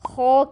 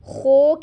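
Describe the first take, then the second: First: The vowel is said with unrounded lips. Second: The vowel is said with rounded lips. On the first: The speaker calls it right. "आपके होंठ बिल्कुल सीधे रहने चाहिए" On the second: The speaker calls it wrong. "होंठों को गोल कर लेते हैं"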